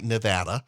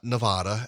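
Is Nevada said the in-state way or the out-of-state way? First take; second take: in-state; out-of-state. First: It is said the way residents say it. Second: It is said the way outsiders say it. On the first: The speaker calls it right. "Notice I said the home state right" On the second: The speaker calls it wrong. "not not Nevada, as I grew up learning"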